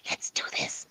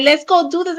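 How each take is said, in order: First: Let's do this whispered, no voice. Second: Said in the usual way. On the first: Shown as a demonstration. Investigator showing a tagless whisper, whispered. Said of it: "but you just whispered it". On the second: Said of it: "they may say that exact same words".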